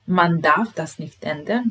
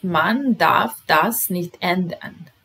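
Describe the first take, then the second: First: Said in the usual way. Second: Slow model reading. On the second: Shown as a demonstration. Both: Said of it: "Broj dvanaest".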